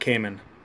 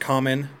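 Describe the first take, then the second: First: The first vowel sounds like 'ay'. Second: The first vowel sounds like 'ah'. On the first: "they are said Cayman" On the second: "It's pronounced common a lot"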